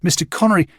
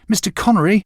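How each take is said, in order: First: Higher, calling after someone walking away; a boy calling after the man. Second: Higher, a louder second call to get his attention; the boy calling louder as the man walks off. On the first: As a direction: call out his name across the beach. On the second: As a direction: call his name again, more urgent. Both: A narrator's reading. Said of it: "I called to him".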